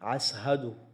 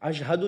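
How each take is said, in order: First: The word is said with an 's' sound. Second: The word is said with a 'sh' sound. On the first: "शीन की जगह सीन बोलते थे" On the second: "नहीं बोलते थे"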